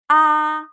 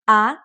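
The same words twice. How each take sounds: First: The pitch stays high and level. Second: The pitch rises from middle to high. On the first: "The first tone, high and flat" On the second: "The second tone, it goes up like up"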